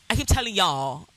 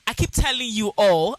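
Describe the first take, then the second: First: It is said in an American English accent. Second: It is said in a Ghanaian English accent.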